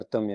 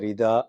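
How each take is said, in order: First: The first syllable is a vocalic r. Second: The first syllable is said as ri. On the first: This is how the word is really pronounced. The speaker calls it right. "ஆனால் உண்மையில் அர்த்தம் என்று உச்சரிக்கப்படுகிறது" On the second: This is the common way it is said in the country. The speaker calls it wrong. "இந்தியாவில் பொதுவாக"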